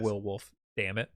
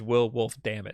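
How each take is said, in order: First: Said with "damn it" as an annoyed outburst. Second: Said evenly, all run together as one name. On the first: The speaker is cursing in frustration. The speaker calls it wrong. "that wasn't an exclamation" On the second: The whole phrase is his name. The speaker calls it right. "His name is ... That was his full name"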